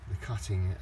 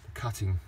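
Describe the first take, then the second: No difference in how they are said.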